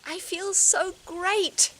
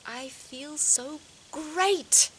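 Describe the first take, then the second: First: Exaggerated affirmation. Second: Sing-song affirmation. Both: Shown as a demonstration. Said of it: "I just got this little sentence".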